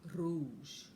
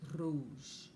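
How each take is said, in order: First: The R is rolled on the tongue tip. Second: The same.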